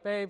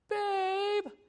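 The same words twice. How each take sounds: First: It is said in a light, casual way. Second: It is said in a tense, alarmed way. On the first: The speaker just wants to chat or show something. "it wasn't a babe like" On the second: Something has gone wrong and help is needed. "It's more like, ... I knew then there's trouble afoot. By the inflection of her voice"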